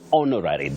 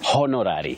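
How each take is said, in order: First: The word begins with a vowel, no H sound. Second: The word begins with an audible H sound. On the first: The speaker calls it right. "That H is silent" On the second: The speaker calls it wrong. "you don't say honorary"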